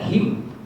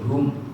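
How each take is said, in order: First: The word ends with an i vowel before m. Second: The word ends with a u vowel before m. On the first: "baca him" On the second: "pakai hum"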